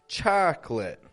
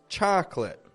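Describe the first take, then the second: First: The word is said with two syllables. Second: The same.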